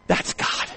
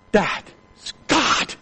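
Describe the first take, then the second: First: Hushed, breathless whisper; whispered awe. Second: Said in the usual way. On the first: Real, not acted. Preacher marveling at the letter, whispering. Awed praise after the story.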